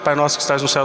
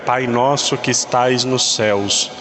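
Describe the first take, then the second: First: It is said quickly, without much thought. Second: It is said slowly, with deliberate attention. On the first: It is recited on autopilot. The speaker calls it wrong. "eu estou acostumado a rezar" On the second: The words are thought about while praying. The speaker calls it right. "um pouquinho mais devagar"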